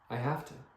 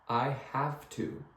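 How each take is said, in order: First: The words are reduced and run together. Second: Each word is pronounced fully and separately. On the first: The speaker calls it right. "We don't pronounce these words. We just say" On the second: The speaker calls it wrong. "none of us English speakers say"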